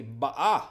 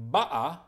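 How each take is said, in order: First: Ba'a with the weight on the final a, rising; stress on the last syllable. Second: Ba'a with the weight on the first ba, falling; stress on the first syllable. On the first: Teacher contrasting the two readings, stress on the final syllable. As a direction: lean into the end of ba'a, ba-A. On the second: Teacher contrasting the two readings, stress on the first syllable. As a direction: hit the start of ba'a, BA-a. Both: Shown as a demonstration. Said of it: "depending on which of these letters you emphasize".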